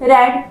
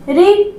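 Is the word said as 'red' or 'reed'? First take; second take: red; reed. First: The vowel is short, like 'red'. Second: The vowel is long, like 'reed'. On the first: It is the past form of the verb. "And here we we से it as रेड" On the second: It is the present form of the verb. "रीड पढ़ रहे हैं"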